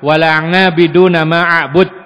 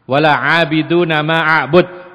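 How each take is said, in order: First: The second word begins with an 'ng' sound. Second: The second word begins with an ain sound.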